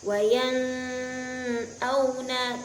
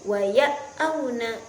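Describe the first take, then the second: First: The n is softened into a nasal hum. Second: The n is merged away and not heard. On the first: "tidak boleh" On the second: "apalagi idgham. Waya auna tidak boleh"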